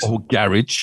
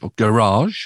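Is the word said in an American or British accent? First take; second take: British; American. First: It is said in a British accent. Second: It is said in an American accent.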